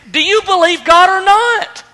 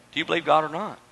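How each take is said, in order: First: High, forceful demand; emphatic angel's ultimatum; confrontational challenge. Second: Low, soft challenge to the listeners; hushed, serious asking; quiet, sober question. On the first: Acted. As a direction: confront them head-on with raised voice. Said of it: "Gabriel almost confronts Zechariah". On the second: Real, not acted. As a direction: drop right down and put it gently. Preacher turns question to congregation.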